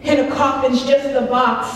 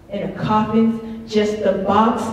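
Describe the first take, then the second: First: Said in the usual way. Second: Lower echo. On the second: Acted. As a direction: let the line sink as an echo. Echo of repeated poem line.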